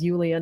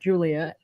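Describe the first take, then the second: First: The name begins with a Y sound. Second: The name begins with a J sound. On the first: The speaker calls it right. "my name is Yulia" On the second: The speaker calls it wrong. "not Julia"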